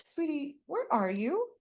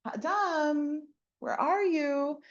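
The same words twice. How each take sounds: First: Softer, higher tender call. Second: Calling by name. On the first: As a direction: call gently to a hiding child. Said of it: "it's the soft tone". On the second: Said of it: "God doesn't say". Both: Retold or imitated.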